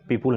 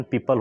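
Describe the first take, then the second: First: पीपुल with rounded 'pool' ending; wrong pronunciation. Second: पीपल as PEE-pul, neutral second vowel; actual pronunciation. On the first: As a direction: say पीपुल as PEE-pool, the mistake to avoid. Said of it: "पीपुल नहीं बोलेंगे". (पीपुल, दूसरे अक्षर में गलत 'उ') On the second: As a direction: keep the end of पीपल unrounded, no 'oo'. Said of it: "इसका actual pronunciation". (पीपल का सही उच्चारण, 'पु' नहीं 'प') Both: Shown as a demonstration.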